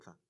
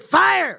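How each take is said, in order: First: It is said flat, without energy. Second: It is said loudly, with energy.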